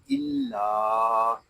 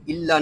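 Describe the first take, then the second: First: इल्ला with the final "aa" held long and steady; correct alif madd. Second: इल्ला with its final "aa" cut short; wrong short madd. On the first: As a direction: stretch out the ending of इल्ला. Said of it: "इसको पढ़ेंगे इल्ला". (इल्ला के आख़िर को खींचकर पढ़ना) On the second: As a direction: rush through इल्ला, no stretch on the ending. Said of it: "इसको इल्ला नहीं पढ़ेंगे". (इल्ला को बिना खींचे छोटा पढ़ना) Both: Shown as a demonstration.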